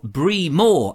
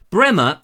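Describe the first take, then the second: First: Bremor said as it is spelt, "BREE-more"; long ee and full "more" in Bremor; spelling pronunciation. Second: Bremer said as two syllables, "BREM-er"; short first vowel in Bremer, weak ending; correct local pronunciation. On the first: Presenter reading the village name from its spelling, Bremor as BREE-more. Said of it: "as it's spelt". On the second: Presenter giving viewers the village's name, Bremer pronounced BREM-er. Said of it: "it's supposed to be pronounced Bremer". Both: Shown as a demonstration.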